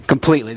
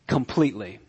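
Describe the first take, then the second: First: Completely repeated louder with a firm fall; stressed completely. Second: Completely said low and soft, trailing off. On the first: Preacher drives the point home, firm completely. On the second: Preacher lets it sink in, soft completely. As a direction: let completely fall away quietly. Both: Shown as a demonstration.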